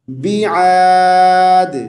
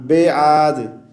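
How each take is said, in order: First: बिआद chanted "bi-'aad", very long vowel; correct bi with ain. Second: बेआद spoken quickly as "be-aad"; wrong be vowel. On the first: Teacher models the word, बिआद as long "bi-'aaad". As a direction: say बिआद with short i, throaty ain, long held aa. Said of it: "बी को आपने बे नहीं पढ़ना". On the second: Teacher shows the mistake, बेआद as plain "be-aad". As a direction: say बेआद with e and no throaty ain. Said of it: "बे नहीं पढ़ना". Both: Shown as a demonstration.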